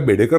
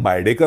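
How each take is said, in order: First: The first syllable sounds like 'bay'. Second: The first syllable sounds like 'bye'. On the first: The speaker calls it right. "आपल्या बेडेकर लोणच्याला" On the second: The speaker calls it wrong. "परदेशात कोण बायडेकर वगैरे म्हटलं तर आपल्याला हसू येईल"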